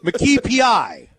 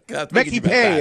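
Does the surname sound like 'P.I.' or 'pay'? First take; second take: P.I.; pay. First: The surname sounds like the letters P.I. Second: The surname sounds like the word pay. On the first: The speaker calls it wrong. "Why do you make such an easy name so hard?" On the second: The speaker calls it right. "McKee Pay is who you might know him as"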